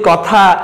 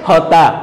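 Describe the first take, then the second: First: The word begins with a k sound. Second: The word begins with an h sound. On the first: "আমরা যদি বলি কথা" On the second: "Chittagong অঞ্চলের লোকজন কি বলে?"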